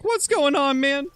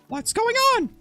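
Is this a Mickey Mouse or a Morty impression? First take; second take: Morty; Mickey Mouse. First: It is said in a Morty voice. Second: It is said in a Mickey Mouse voice.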